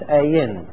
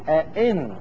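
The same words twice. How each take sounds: First: The second glottal stop becomes a y sound. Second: Both glottal stops are fully pronounced. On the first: The heavy double hamza is eased. "فخفف بإبدال الثانية من جنس حركتها" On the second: Both hamzas are realized in full. "وهو التحقيق"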